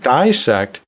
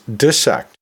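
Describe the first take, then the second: First: The first syllable sounds like 'die'. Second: The first syllable sounds like 'dis'. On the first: "it sounds like the first word part is die" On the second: "I think that is a little more clearly tied to its word parts, dis and sect"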